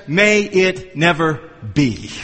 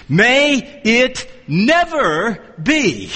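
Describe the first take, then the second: First: MAY IT NEVER BE spaced out slowly at a low pitch; slow, low, word by word "May it never be"; measured quote. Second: MAY IT NEVER BE, each word drawn out very slowly and weightily; emphatic answer. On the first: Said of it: "For the ninth time, he says". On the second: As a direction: hammer out "May it never be" at half speed, word by word. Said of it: "so there's the emphatic answer". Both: Retold or imitated.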